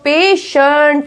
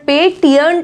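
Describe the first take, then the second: First: The middle consonant is an sh sound. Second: The middle consonant is a t sound. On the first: The speaker calls it right. "इसको बोला गया है श" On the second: The speaker calls it wrong. "पेटियंट नहीं बोलेंगे"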